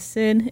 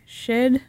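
First: The word begins with a plain s sound. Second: The word begins with an sh sound. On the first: The speaker calls it wrong. "I have been mispronouncing with my shoddy American education" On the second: The speaker calls it right. "It is actually pronounced"

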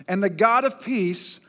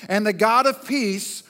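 The two takes are said the same way.

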